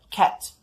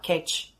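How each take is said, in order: First: The word ends with a t sound. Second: The word ends with a ch sound. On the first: It means the animal cat. The speaker calls it right. "a palavra cat, de gato" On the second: It sounds like the verb to catch. The speaker calls it wrong. "o nativo vai acabar entendendo a palavra catch"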